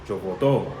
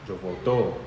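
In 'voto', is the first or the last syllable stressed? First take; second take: last; last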